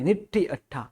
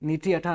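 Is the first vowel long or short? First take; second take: short; long. First: The first vowel is short. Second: The first vowel is long. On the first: The speaker calls it right. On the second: The speaker calls it wrong.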